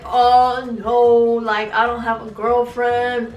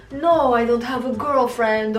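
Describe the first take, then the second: First: Louder mock-boyfriend denial; imitating boyfriend. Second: Mock boyfriend in a would-be Serbian accent; accidental Serbian accent. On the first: Redoing the cheating boyfriend's denial, mocking imitation. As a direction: put on his drawn-out excuse voice. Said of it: "He would always be like". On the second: Woman mimicking her cheating boyfriend's denial, accidental Serbian accent. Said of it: "why is that a Serbian accent?".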